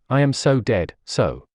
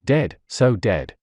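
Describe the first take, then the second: First: "I am so dead" said at normal pace; dread-filled repeat. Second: "dead, so dead" stretched out slowly; slow despairing repeat. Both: A narrator's reading. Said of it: "He kept repeating in his mind".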